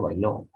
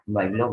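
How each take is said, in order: First: Bailó stressed on the final LÓ; baiLÓ, first syllable unstressed; stress on last syllable. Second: Bailó said as BAIlo, stressed on the first syllable; BAIlo, final syllable unstressed. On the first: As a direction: hit the end of bailó, bai-LÓ. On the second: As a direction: hit the start of bailó, BAI-lo. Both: Shown as a demonstration. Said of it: "cambia de grave a agudo".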